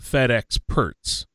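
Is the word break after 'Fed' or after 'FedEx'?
after FedEx. The break falls after 'FedEx', before 'perts'. It sounds like the package delivery company. The speaker calls it wrong. "not Fed experts"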